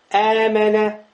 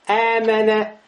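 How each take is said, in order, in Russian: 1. Гласные сливаются в один долгий гласный. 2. Гласные сливаются в один долгий гласный.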